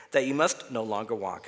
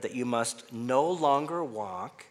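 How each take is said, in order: First: Said in the usual way. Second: Slow build to a weighted "walk"; slow reading, landing firmly on "walk"; stress on walk. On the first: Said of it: "instead of emphasizing with my voice the word walk". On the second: Shown as a demonstration. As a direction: lean on "walk" at the end, drawn out. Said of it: "emphasizing with my voice the word walk".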